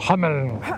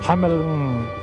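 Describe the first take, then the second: First: The name is said harshly and forcefully. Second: The name is said softly and plainly.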